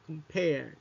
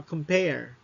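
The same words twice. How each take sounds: First: Compare again as com-PARE, falling on the PARE; compare, second syllable stressed, falling tune. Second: Compare said as com-PARE, second syllable stressed. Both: Shown as a demonstration. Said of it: "the stress falls on the second syllable".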